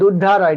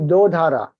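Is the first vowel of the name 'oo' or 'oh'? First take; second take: oo; oh. First: The first vowel sounds like 'oo'. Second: The first vowel sounds like 'oh'. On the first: The speaker calls it wrong. "People call it Dudhara" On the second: The speaker calls it right. "It is not Dudhara, it is Dodhara"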